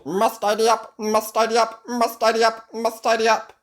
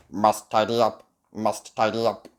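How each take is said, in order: First: High, loud frantic robot chant; out-of-control robot. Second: Robotic monotone at a steady pitch; loud robot repetition. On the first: Robot running wild in the castle, high frantic chant. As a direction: repeat it relentlessly like a malfunctioning machine. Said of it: "the robot gets out of control". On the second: Robot tidying the castle, steady mechanical chant. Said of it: "he repeats loudly". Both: A narrator's reading.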